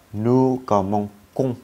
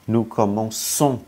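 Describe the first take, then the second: First: "commençons" with a hard k sound, as in "commenkons"; "nous commençons", c wrongly pronounced k, not s; wrong pronunciation. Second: "commençons" with a soft s sound, as in "commenssons"; "Nous commençons", ç pronounced s, not k; correct French pronunciation. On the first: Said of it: "Phát âm nó không ra cái gì cả". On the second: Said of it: "Nhưng tới chữ nous". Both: Shown as a demonstration.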